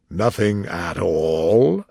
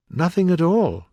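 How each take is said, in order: First: Slow "Nothing at all" rising at the end; incredulous question. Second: Higher "Nothing at all" with a falling end; firm answer. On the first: King doubting Alice's answer, "Nothing at all" as a slow rising question. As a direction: stretch "Nothing at all" low, swooping up into a question. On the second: Alice answering the King, "Nothing at all" high and final. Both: A narrator's reading.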